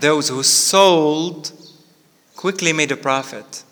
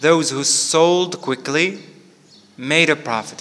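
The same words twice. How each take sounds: First: The pause comes before the word quickly. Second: The pause comes after the word quickly. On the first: The people who sold made a profit fast. "But the second one is" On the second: The people who sold fast made a profit. "normally I should read it like this"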